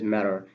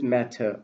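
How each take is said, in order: First: The final R sound is pronounced. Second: The final R sound is dropped. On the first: "in American accent it is matter" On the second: "in British accent it is matter"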